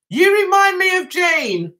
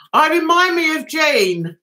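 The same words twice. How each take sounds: First: Said in the usual way. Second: "I remind me of Gene" read out literally, puzzled; misread comment. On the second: Shown as a demonstration. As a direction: read the garbled comment as written, stumbling on it.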